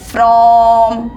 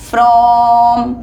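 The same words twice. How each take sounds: Both takes have the same delivery.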